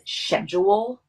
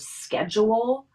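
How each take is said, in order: First: It is pronounced the European way. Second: It is pronounced the non-European way.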